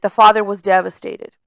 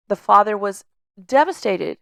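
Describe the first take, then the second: First: Said in the usual way. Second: "The father was", a held pause, then "devastated" set apart; dramatic pause before devastated. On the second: Shown as a demonstration. Coach retelling Joseph's story, pausing before "devastated".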